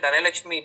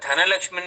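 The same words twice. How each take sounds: First: The first consonant is said without a breath. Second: The first consonant is said with a breath. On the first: The speaker calls it wrong. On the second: The speaker calls it right.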